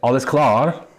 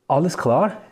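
First: It sounds like a command allowing no refusal. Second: It sounds like an open, genuine question.

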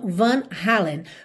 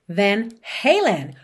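First: It is said with Brazilian Portuguese pronunciation. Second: It is said with English pronunciation.

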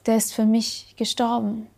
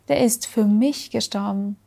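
First: The stress falls on gestorben. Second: The stress falls on für mich.

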